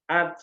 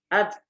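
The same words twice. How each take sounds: First: The final t has no audible puff of air. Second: The final t is held, then air escapes. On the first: The speaker calls it wrong. "Jadi bukan at" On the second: The speaker calls it right. "Tapi at. ... Keluar udara tapi tertahan"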